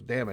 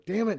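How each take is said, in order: First: A lighter mock frustrated "Damn it"; mild curse. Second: Sharp high exasperated curse; bursting out in frustration; frustrated curse. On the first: Retelling the joke again, a milder mock frustrated curse. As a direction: toss off the curse half-heartedly. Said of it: "Then somebody goes". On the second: Retold or imitated. Retelling the sitcom, a character blurts it out in sharp high frustration. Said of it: "you hear somebody go".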